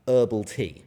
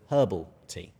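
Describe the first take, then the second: First: It is said with an American pronunciation. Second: It is said with a non-American pronunciation. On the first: This is how people in the United States say it. "I'm sure all of you here talk about herbal tea" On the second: This is how the speaker normally says it. "whereas I would call it herbal tea"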